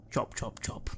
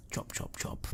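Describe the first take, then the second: First: Said in the usual way. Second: Chop, chop, chop whispered very soft, far off. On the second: Shown as a demonstration. GM echoing the unseen chopping, faint whisper. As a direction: breathe the chops like a distant knife. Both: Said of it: "repeated sound cue".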